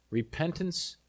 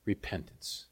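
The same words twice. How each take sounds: First: Said in the usual way. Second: Hushed. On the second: Acted. Repeats key word, hushed.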